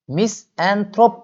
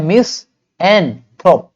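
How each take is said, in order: First: Said in the usual way. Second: मिसएनथ्रोप loud and slow, mis - an - throp; syllable-by-syllable. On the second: Shown as a demonstration. Teacher shows how to read it, मिसएनथ्रोप slowly and firmly split. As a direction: punch each separate piece of मिसएनथ्रोप. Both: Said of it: "मिसएनथ्रोप पढ़ेंगे।".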